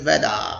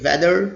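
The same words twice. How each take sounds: First: It has a British accent, without final r. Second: It has an American accent, with final r.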